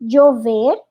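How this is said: The ll sounds like a j or y. "o acento colombiano é já, je, ji, joju. Por exemplo"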